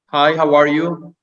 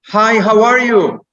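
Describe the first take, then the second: First: It is said flatly, with no emotion. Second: It is said loudly, with lively energy.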